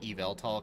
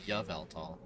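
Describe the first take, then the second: First: The name begins with an 'ee' vowel sound. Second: The name begins with a 'y' sound as in yes. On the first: "I like to pronounce it Eveltal because Y sounds a lot like an E" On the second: "like yet the Y as in like yes"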